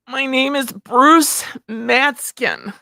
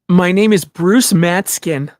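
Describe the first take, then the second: First: The voice is more whiny and strained. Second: The voice is less whiny and strained.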